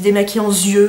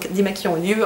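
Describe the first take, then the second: First: A z sound is linked before yeux. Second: No z sound is linked before yeux. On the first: The speaker calls it wrong. "les gens qui disent démaquillant yeux" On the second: The speaker calls it right. "bah non, hein"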